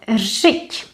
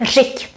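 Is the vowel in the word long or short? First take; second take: long; short. First: The vowel is held long. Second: The vowel is kept short. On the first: The speaker calls it wrong. "We add the accent rit, but also this is not what we keep" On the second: The speaker calls it right. "here it's short"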